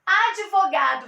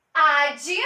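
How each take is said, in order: First: Said in the usual way. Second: "Advogado" split into ad, vo, ga, do, long pauses between; syllable by syllable. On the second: Shown as a demonstration. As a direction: break "Advogado" into four separate syllables. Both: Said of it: "Vamos separar?".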